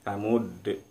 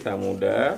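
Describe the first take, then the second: First: The word ends on a bouncing d sound. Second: The word ends with a short a vowel. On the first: The reading stops at this word. "Ketika berhenti samud" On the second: The reading continues into the next word. "kalau disambung tadi samuda"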